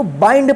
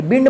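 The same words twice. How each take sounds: First: बाइंड said with the diphthong ai, as baind; correct pronunciation. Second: बिंड said with a short i, as bind rhyming with tinned; the mistaken बिंड, short vowel; wrong pronunciation. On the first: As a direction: model the right बाइंड with ai. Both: Shown as a demonstration. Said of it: "बिंड मत पढ़िएगा".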